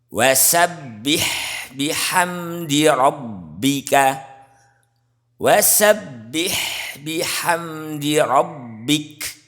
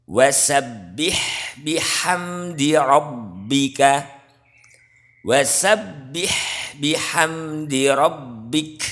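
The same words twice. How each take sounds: No difference in how they are said.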